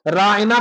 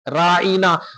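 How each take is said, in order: First: The middle is said plainly and lightly. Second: The middle is pressed and drawn out.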